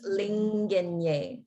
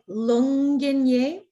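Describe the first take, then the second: First: The vowel after the L sounds like 'i'. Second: The vowel after the L sounds like 'u'. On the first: The speaker calls it right. "whereas it's linginye" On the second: The speaker calls it wrong. "It just sounded a little bit like lunginye"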